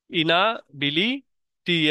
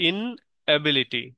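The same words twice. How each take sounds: First: ইনাবিলিটি split slowly as ina, bili, ti; halting ইনাবিলিটি in wrongly divided chunks; learner's misreading. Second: ইনএবিলিটি slowly split as in, ability; slow ইনএবিলিটি with a clear break after ইন; correct syllable division. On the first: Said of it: "এরকম করে বলতেন". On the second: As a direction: hold ইন, then say এবিলিটি as its own word. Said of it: "এই সিলেবলের জ্ঞান থাকবে". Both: Shown as a demonstration.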